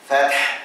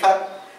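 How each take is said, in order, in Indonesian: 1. Berakhir dengan bunyi h berdesah yang jelas. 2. Berakhir tanpa bunyi h berdesah yang jelas. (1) "Tu kena bunyi macam tu. Ha tu" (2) "kadang-kadang bunyi fath"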